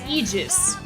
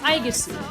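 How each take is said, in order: First: The name is said with its Greek pronunciation. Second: The name is said with its Japanese pronunciation. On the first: "The Greek pronunciation of the A E G I S" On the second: "the Japanese voice actors pronounce her name as"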